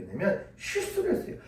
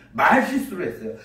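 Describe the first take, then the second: First: Said in the usual way. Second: 말 stressed and falling. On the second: Shown as a demonstration. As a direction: hit the word 말 first. (말을 힘주어 강조)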